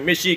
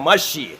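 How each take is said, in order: First: The first vowel is an i sound. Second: The first vowel is an a sound. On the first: The speaker calls it wrong. "कोई मिशी कहता है" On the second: The speaker calls it right. "सही लफ्ज़ है मशी"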